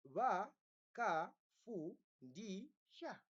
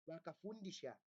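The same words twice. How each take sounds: First: "Vakafundisha" very slowly as va, ka, fu, ndi, sha; syllable by syllable. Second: Said in the usual way. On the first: Shown as a demonstration. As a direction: pause after each of the five syllables of "Vakafundisha". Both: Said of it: "has how many syllables?".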